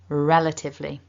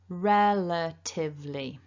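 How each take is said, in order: First: The word is said quickly. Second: The word is said slowly.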